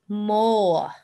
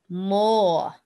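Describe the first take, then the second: No difference in how they are said.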